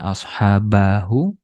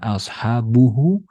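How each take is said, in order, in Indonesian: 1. Vokal a ada sebelum akhiran. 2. Vokal u ada sebelum akhiran. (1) "bukan dibaca ashabahu" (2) "Bukan dibaca ashabuhu"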